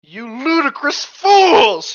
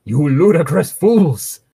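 First: Loud, high, slow outraged cry; drawn-out furious shout, acted; theatrical shout. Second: Drawn-out, moderately raised mock shout; slow theatrical scolding, half-shouted; acted shout. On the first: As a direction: bellow it like a hammy villain. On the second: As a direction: stretch out the outrage, slightly high. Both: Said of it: "he shouted".

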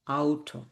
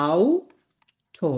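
First: "আউটো" joined up as "ow-to"; German pronunciation. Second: "আউটো" very slow, split into "ow" and "to"; slow German pronunciation. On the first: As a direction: say "আউটো" as one whole word. ("আউটো" একটানা German উচ্চারণে) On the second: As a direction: stretch "আউটো" in two separate parts. ("আউটো" খুব ধীরে, ভেঙে ভেঙে) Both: Shown as a demonstration. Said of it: "গাড়ির উচ্চারণ হচ্ছে".

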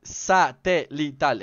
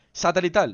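First: "Satelital" very slow, syllable by syllable; careful pronunciation. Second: Said in the usual way. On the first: Shown as a demonstration. ("Satelital" muy lento, sílaba por sílaba) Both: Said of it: "Es un poquito complicado pronunciar esa palabra".

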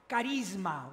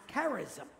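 First: Charisma said the Greek way, ka-REEZ-ma; Greek pronunciation. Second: Charism said the English way, KARE-iz-um; English pronunciation. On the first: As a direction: say charisma with a hard k and long ee, tapped r. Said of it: "is pronounced". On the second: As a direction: stress the first syllable of charism, KARE-iz-um. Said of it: "In English, it's pronounced". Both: Shown as a demonstration.

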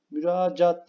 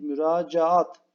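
First: Müracaat said short with one a; teacher shows the wrong Müracaat; wrong form. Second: Müracaat said slowly with a long double a; teacher stretches the double a in müracaat; correct form. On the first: Teacher to pupils, wrong Müracaat. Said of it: "Müracaat değil". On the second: Teacher to pupils, slow correct müracaat. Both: Shown as a demonstration.

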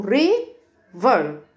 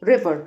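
First: "river" slowly as ri, pause, ver; split into syllables. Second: Said in the usual way. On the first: Shown as a demonstration. Teacher explains why river has two parts, split slowly. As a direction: break "river" into two stretched beats. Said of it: "احنا قسمناها ل two syllables ليه؟". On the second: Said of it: "النهر اسمه ايه؟".

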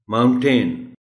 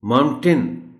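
First: The right माउंटेन, modelled for teachers; correct pronunciation. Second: माउंटेन with a full ten at the end, said loud; the mistake pupils make on माउंटेन; wrong pronunciation. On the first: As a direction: say माउंटेन as MOUNT-n, loud and clear. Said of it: "इसका बच्चों को आप थोड़ा सा caution". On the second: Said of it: "माउंटेन नहीं कहना।". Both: Shown as a demonstration.

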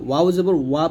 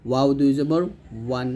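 First: ওয়া read as plain ওয়া with no nasal ending; the mistaken ওয়া, no tanwin ending; wrong reading. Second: ওয়ান ending in a quick clear ন; ওয়ান with the quick tanwin ending; correct tanwin. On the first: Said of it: "পড়ছিলাম". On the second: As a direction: finish ওয়ান with the tanwin ন sound. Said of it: "এখানে পড়তে হবে". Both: Shown as a demonstration.

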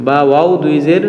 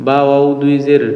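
No difference in how they are said.

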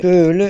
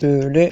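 First: Second "Böyle" with a pleased rise; brighter repeat. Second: Said in the usual way. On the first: Shown as a demonstration. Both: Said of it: "Camları şöyle yapabiliriz".

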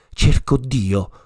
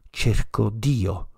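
First: A loud, urgent call for God; crying out. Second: Slower echo. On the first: Madman calling out in the market, loud cry. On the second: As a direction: let the second call fall away, slowly. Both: A narrator's reading. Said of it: "si mise a gridare incessantemente".

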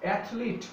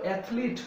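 The two takes are said the same way.

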